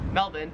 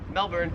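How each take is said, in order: First: The R in the last syllable is dropped. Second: The R in the last syllable is pronounced.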